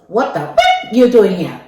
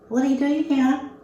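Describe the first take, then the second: First: It is said in an angry, swearing tone. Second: It is said in a calm, mild tone.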